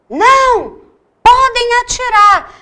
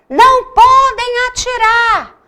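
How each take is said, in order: The two takes are said the same way.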